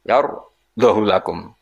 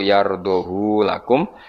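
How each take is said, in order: First: The final vowel of yardahu is kept short. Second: The final vowel of yardahu is lengthened. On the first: "tanpa isba" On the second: "ma isbain sertane isba berarti normal"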